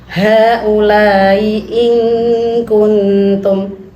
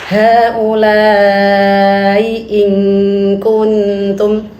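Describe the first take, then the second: The two takes are said the same way.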